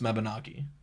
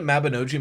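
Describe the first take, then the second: First: It is pronounced the way Welsh would say it. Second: It is pronounced as the English spelling suggests. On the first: It follows the word's Welsh origin. The speaker calls it right. "in Welsh would be pronounced Mabinogi" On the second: It is how the word reads on the page. The speaker calls it wrong. "I said it Mabinogi my entire life because I only ever read it"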